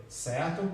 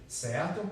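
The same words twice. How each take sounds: The two takes are said the same way.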